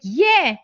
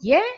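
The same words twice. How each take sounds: First: It sounds warm and enthusiastic. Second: It sounds hesitant and uncertain.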